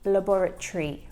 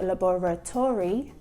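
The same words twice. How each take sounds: First: The final syllables merge into one shortened sound. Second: Every syllable is pronounced fully and clearly. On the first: The speaker calls it right. "that O R Y merges to make laboratory" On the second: The speaker calls it wrong. "It's not laboratory"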